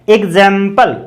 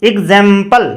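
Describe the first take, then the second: Both takes have the same delivery.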